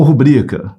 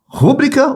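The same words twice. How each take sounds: First: "rubrica" with the beat on BRI; "rubrica" as a paroxytone, ru-BRI-ca; correct stress ruBRIca. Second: "rúbrica" with high first syllable RÚ; "rúbrica" as a proparoxytone, RÚ-bri-ca; wrong stress RÚbrica. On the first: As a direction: stress the middle syllable of "rubrica". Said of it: "Sílaba forte é o bri". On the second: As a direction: hit RÚ at the start of "rúbrica". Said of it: "O aluno vai ficar em dúvida". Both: Shown as a demonstration.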